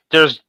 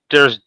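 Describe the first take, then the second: No difference in how they are said.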